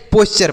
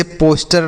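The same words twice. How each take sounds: First: पोस्चर with ch, not a hard t; correct "posture" reading. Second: पोस्टर with a hard t in place of ch; wrong "posture" reading. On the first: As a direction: say पोस्चर as POS-cher. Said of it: "पोस्चर पढ़ेंगे". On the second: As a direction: misread posture as पोस्टर, POS-ter. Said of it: "से पोस्टर नहीं पढ़ेंगे". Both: Shown as a demonstration.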